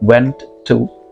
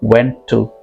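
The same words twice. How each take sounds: First: The two words are said separately, each sound full. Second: The two words are joined, sharing one t sound. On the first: "यहाँ पर मैंने ऐसे नहीं कहा" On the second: "मैंने इसे combine किया हूँ"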